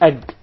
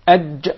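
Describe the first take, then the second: First: The consonant is a hard g sound. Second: The consonant is a soft j sound. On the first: The speaker calls it wrong. "Not ag" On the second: The speaker calls it right. "There is no gim in Arabic. It is aj"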